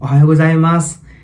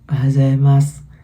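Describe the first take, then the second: First: It is said cheerfully and confidently. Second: It is said shyly and timidly.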